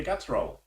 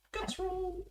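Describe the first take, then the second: First: Said in the usual way. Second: Very high, soft held notes; playful high echo. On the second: Pretend. Game master echoing the call for a guts roll, high and soft.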